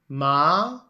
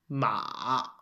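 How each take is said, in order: First: The pitch rises from middle to high. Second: The pitch dips low and then rises. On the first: It means hemp. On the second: It means horse.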